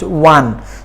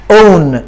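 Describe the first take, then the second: First: The word begins with a w sound. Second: The word begins with a vowel sound. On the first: The speaker calls it right. "It should be pronounced one" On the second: The speaker calls it wrong. "it should not be pronounced own"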